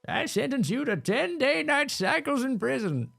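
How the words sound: It is said in a put-on old man voice.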